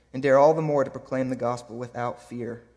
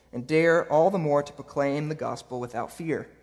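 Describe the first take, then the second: No difference in how they are said.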